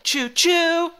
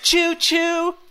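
First: The stress falls on the second 'choo'. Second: The stress falls on the first 'choo'. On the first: "stress on the second chew" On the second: "stress on the first chew"

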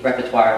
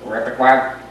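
First: The word is said in the speaker's usual accent. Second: The word is said in an Indian accent.

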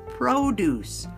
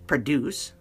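First: The first vowel is a long O. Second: The first vowel is a short O. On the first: It is the noun meaning fruits and vegetables. "Now that it's a long O sound" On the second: It is the verb meaning to make. "the verb"

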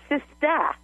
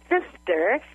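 First: The final R sound is dropped. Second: The final R sound is pronounced. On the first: "they're saying sista" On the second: "if it has an R on the end, like sister"

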